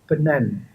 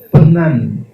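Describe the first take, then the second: First: The n is made with the tongue on the ridge. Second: The n is made with the tongue between the teeth. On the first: Listeners do not recognize it as their word. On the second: It is a known word meaning to stick.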